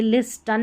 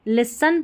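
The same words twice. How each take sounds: First: "लिस्टन" with the t sounded, lis-tun; wrong pronunciation. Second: "लिसन" with silent t, lis-un; correct pronunciation. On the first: Teacher warns against it, "लिस्टन" with audible t. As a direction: misread listen as "लिस्टन". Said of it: "लिस्टन नहीं पढ़ेंगे इसे". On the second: Teacher gives the right reading, "लिसन" without t. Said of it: "यहाँ पर लिसन पढ़ेंगे". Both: Shown as a demonstration.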